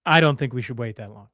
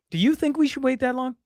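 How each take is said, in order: First: I don't think punched on I; stress on I. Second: We said higher as a question; stress on we. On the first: Host rereads the line stressing I. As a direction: lean hard on I in I don't think. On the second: Host rereads it as a question stressing we. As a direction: lift and lean on we in the question. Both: Shown as a demonstration.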